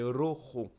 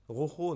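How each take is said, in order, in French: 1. Le r est un roulement de langue. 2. Le r est un r guttural français. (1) "Il va falloir bien le- la rouler" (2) "prononcer le R comme bah, le R classique. C'est pas par exemple euh"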